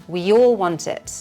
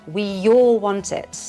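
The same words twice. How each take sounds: Both takes have the same delivery.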